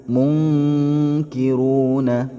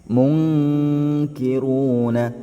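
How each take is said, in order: No difference in how they are said.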